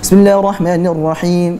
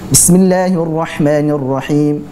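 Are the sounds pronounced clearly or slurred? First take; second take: slurred; clear. First: The sounds are rushed and slurred together. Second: Each sound is pronounced distinctly and clearly. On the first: The speaker calls it wrong. "membaca huruf atau harokat tersebut dengan tidak jelas" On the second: The speaker calls it right. "harusnya tetap jelas"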